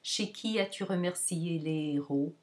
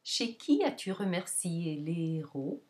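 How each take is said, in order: First: "qui" only slightly raised, fairly even through "héros"; less pronounced intonation. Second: "qui" high after "Chez", falling until "héros" rises; higher-pitched question word. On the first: Teacher shows a variation of the question, less pronounced pitch on "qui". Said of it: "variations that are not as pronounced". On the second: Teacher models preposition plus question word, high pitch on "qui". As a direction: peak on "qui", step down, lift on "héros". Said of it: "the question word that will take the higher pitch". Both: Shown as a demonstration.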